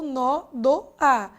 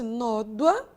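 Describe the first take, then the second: First: The word is said in three syllables. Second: The word is said in two syllables. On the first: "eu só pude transformar esse ditongo em hiato" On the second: "duas sílabas, primeira chance"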